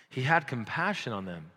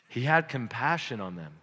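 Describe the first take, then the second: No difference in how they are said.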